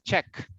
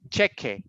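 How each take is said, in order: First: The word ends on the consonant sound. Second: The word ends with a final vowel sound. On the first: "Solo elimina la E y usted dice check" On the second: "Si usted dice cheque"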